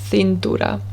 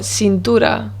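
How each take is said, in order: First: The c is said with a th sound. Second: The c is said with an s sound. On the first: This is the peninsular Spanish way of saying it. "it's a th" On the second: This is the Latin American way of saying it. "the th sound with a C is actually an S"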